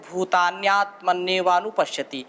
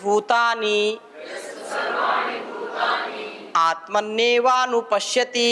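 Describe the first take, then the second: First: The words merge into one joined form. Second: The words are split and said apart. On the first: "इको अणची लग गया तो भूतान्यात्मन्यवानुपश्यति उच्चारण ऐसे होगा" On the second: "यदि तोड़ करके पढ़ेंगे उच्चारण की दृष्टि से आपको सरलता हो"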